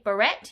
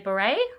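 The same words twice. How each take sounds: First: The final t is pronounced. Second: The final t is silent. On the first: The speaker calls it wrong. "you don't say beret" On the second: The speaker calls it right. "you say beret. That's like a French spelling where you don't pronounce some of the letters"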